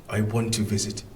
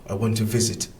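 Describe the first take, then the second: Both takes have the same delivery.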